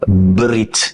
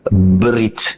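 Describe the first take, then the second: First: Only a faint half vowel sits between b and r. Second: The same.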